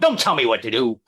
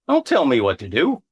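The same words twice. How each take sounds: First: It is said harshly, without a smile. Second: It is said playfully, with a smile. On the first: The speaker seems truly annoyed. The speaker calls it wrong. "you don't go" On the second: The speaker is only joking. The speaker calls it right. "and smile"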